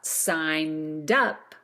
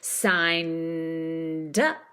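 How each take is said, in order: First: It is said quickly as one smooth unit. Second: It is said slowly with a long held N. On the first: "when we speed that up" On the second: "using a nice long vowel in signed up. Hold on to the N"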